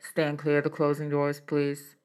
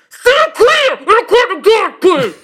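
First: It is said calmly at normal volume. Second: It is screamed loudly and angrily.

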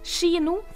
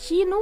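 First: The word begins with a sharper sh-like sound. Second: The word begins with a softer kj sound. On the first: Many young people now say it this way. "bytter ut KJ med SKJ-lyden" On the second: This is the older, traditional way. "bytter ut KJ med SKJ-lyden"

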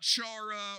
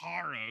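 First: The first sound is plain, not throaty. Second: The first sound is harsh and throaty. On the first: The speaker calls it wrong. "It's not chara or chara. Like it looks like" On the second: The speaker calls it right. "You got to kind of hawk a loogie at the front of it"

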